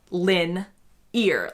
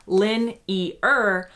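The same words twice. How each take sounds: First: "lin-ear" slowly in two syllables, the second like "ear"; "lin-ear" the American way, LIN-ear like your ear. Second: "lin-ear" split into three parts, LIN-ee-er; "lin-ear" drawn out the way her husband says it; three-syllable lin-ear. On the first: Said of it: "the way I say it is lin-ear, like your ear". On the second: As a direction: spell out "lin-ear" syllable by syllable, British style. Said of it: "more similar to a three syllable". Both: Shown as a demonstration.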